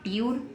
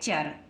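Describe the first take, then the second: First: It starts with a t sound followed by y. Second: It starts with a ch sound, no y glide. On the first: The speaker calls it wrong. "तो हम इसको ट्यूर नहीं पढ़ेंगे, ये गलत है" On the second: The speaker calls it right. "तो T U R E तो पढ़ेंगे इसको चर"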